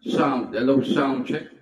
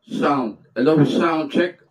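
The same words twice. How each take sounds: First: The voice has a reverb echo effect. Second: The voice is natural with no effect. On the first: "medyo parang reverb yung effects niya" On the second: "yan yung natural na sound niya pagka walang effects"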